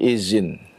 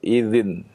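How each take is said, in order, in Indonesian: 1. Konsonan di tengah adalah bunyi z. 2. Konsonan di tengah adalah bunyi dh yang lembut. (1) "kebanyakan berubah menjadi zai" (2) "itu dengan dal"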